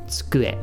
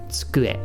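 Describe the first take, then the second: First: The vowel after ts is shortened, nearly dropped. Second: The same.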